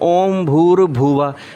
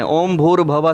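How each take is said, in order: First: The third word has a clear 'u' after 'bh'. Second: The third word has 'a' after 'bh'. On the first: The speaker calls it right. "जब बोलते हैं ओम भूर भुवा" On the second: The speaker calls it wrong. "भुवा में से ऊ की मात्रा खा जाते हैं बच्चे"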